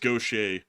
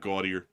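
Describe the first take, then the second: First: It is said the way locals pronounce it. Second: It is said the way outsiders pronounce it. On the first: The speaker calls it right. "That's Gaucher" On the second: The speaker calls it wrong. "It's not Gaudier. You would think it's Gaudier"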